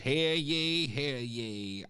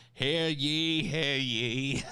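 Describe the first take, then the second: First: High mock town crier call. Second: Town crier. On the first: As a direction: cry it out like a herald. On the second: Pretend. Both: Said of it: "No town criers".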